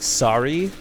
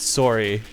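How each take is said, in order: First: The first vowel is an open 'ah' sound. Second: The first vowel is a rounded 'oh' sound. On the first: This is how Americans say it. "Americans say it with like a bit of an A" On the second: This is how Canadians say it. "Canadians always say it with an O"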